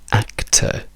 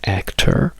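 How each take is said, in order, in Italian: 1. La fine è una schwa semplice, senza R. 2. La fine è una schwa seguita da una R forte. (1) "diciamo semplicemente act" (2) "In americano it's actor, dove abbiamo questa R forte"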